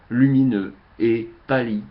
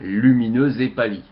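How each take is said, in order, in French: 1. Les mots sont séparés, sans liaison en z. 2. Un son z relie lumineux à et. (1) "je coupe les mots exprès pour qu'on entende bien les mots en dehors des liaisons" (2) "on ferait les liaisons pour une lecture classique"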